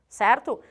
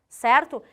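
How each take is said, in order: The two takes are said the same way.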